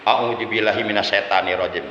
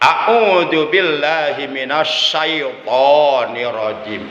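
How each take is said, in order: First: The middle word is said like 'setan'. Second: The middle word is said like 'syaiton'. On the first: The speaker calls it wrong. "jelas salah menurut ilmu tajwid" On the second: The speaker calls it right. "Itu yang benar"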